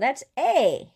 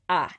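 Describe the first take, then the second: First: The vowel is an English-style 'ay' sound. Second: The vowel is an open 'ah' sound. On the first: The speaker calls it wrong. "you're thinking in English" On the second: The speaker calls it right. "it's actually pronounced a"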